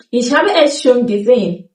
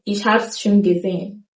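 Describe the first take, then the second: First: Ich habe es schon gesehen said in full; careful full sentence; full form. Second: Ich hab's schon gesehen, es clipped; quiet casual hab's; reduced form. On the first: Teacher gives the textbook sentence. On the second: Teacher shows the spoken sentence. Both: Shown as a demonstration. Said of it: "E S gets reduced".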